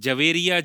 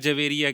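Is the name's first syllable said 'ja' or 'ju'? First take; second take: ja; ja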